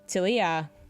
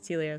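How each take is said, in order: First: The name is said slowly and clearly. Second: The name is said fast and slurred.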